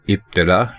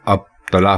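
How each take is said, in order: First: The word begins with an 'i' vowel. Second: The word begins with an 'a' vowel. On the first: The speaker calls it right. "ये दुरुस्त है इब्तिला" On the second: The speaker calls it wrong. "इसको लोग अब तला पढ़ते हैं"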